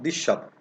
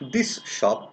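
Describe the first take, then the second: First: The words run together, s becoming sh. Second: The two words are said apart, s kept. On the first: "The sound saw is vanishing" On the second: "I am pronouncing separately"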